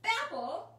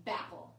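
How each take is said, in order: First: "Bapple" called out higher and louder; excited repeat. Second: Said in the usual way. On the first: Shown as a demonstration. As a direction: bounce "Bapple" back, high and loud, eager. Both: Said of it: "And then you say".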